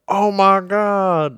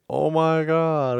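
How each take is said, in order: First: It is said with excited enthusiasm, like J R. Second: It is said flatly, without enthusiasm, like Joe.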